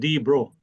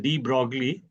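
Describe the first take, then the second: First: The name is said with a French pronunciation. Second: The name is said with an English-style pronunciation. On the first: This is how it is said in the original language. "but in French his name is pronounced as" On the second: This is the usual local way of saying it. "Normally in India we call him as D. Broglie"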